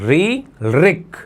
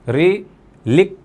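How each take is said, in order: First: The second word begins with an R sound. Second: The second word begins with an L sound. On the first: The speaker calls it right. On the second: The speaker calls it wrong.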